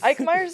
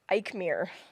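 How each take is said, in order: First: The surname is said like 'Meyer'. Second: The surname is said like 'Mir'. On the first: This is how the name is really said. The speaker calls it right. "the w- right way to say it" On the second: Someone else got the name wrong. The speaker calls it wrong. "someone said like"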